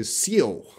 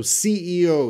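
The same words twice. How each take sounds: First: "C E O" run together as SEE-oh; read as a word. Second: "C E O" as three letter names; initialism. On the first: Teacher showing class what we don't say, "C E O" as one word. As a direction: blend "C E O" into one two-syllable word. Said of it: "We don't say". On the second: Teacher explaining an initialism to class, "C E O" letter by letter. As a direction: say each letter of "C E O". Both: Shown as a demonstration.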